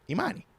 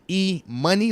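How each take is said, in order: First: The middle syllable has an open 'mah' sound. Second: The middle syllable sounds like the word money. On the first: The name is the given name Imani. "Imani like Imani" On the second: The name refers to cash. "E Money like moolah"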